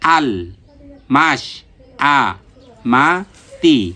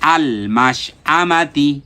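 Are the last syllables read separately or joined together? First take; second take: separately; joined. First: The syllables are read one by one, apart. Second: The syllables are joined into one smooth word. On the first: "আবার উচ্চারণ করি" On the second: "এখন একসাথে পড়ব"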